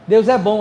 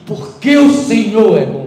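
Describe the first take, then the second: First: It is said in his natural everyday voice. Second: It is said in a put-on, formal pulpit voice.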